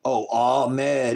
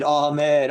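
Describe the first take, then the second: First: Said in the usual way. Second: Ahmed called out louder and higher; exasperated louder Ahmed; louder repeat. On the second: Real, not acted. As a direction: call out Ahmed with emphasis.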